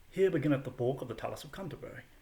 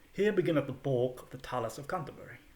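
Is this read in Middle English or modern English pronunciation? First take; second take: Middle English; Middle English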